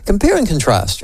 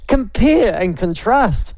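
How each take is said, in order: First: Said in the usual way. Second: Compare and contrast, drawn out slowly; slow emphatic. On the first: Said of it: "make this a primary question". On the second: Shown as a demonstration.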